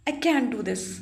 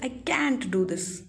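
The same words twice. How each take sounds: First: The t in can't is barely heard. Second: The t in can't is clearly heard. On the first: It may sound like can instead of can't. The speaker calls it wrong. "ऐसे बोलोगे flow में" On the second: It clearly sounds like can't. The speaker calls it right. "टी sound करना चाहिए"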